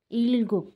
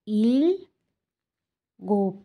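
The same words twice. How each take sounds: First: Said in the usual way. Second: ইলগোপ drawn out slowly as "il... gop"; syllable by syllable. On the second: Shown as a demonstration. Teacher sounding out Korean eight for learners, ইলগোপ split slowly. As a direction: break ইলগোপ into two long syllables with a pause.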